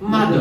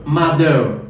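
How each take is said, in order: First: It has a British ending without an r sound. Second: It has an American r sound at the end.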